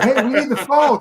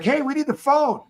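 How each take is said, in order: First: Loud high call for the phone; retold shout. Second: Retold shout. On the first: Calling out to the cop for the phone, loud. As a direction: holler it out to the passing cop. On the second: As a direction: call it out even higher to the cop. Yelling for the phone again.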